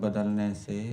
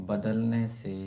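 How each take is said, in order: No difference in how they are said.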